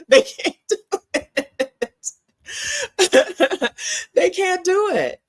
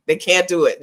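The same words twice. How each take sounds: First: High, slow, laughing "They can't do it". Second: Said in the usual way. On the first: Real, not acted. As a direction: laugh through the words, pitched up. Laughing through repeated punchline.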